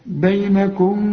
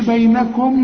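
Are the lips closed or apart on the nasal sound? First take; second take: apart; closed. First: The lips stay apart with a nasal hum. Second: The lips close fully on the nasal sound. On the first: The speaker calls it right. "خلي انفراق في الشفايف ولازم تغن" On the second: The speaker calls it wrong. "ما تضمش شفايفك، ما تقولش بينكم بمعروف"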